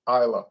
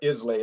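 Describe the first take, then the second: First: It is said differently from its spelling. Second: It is said the way it is spelled.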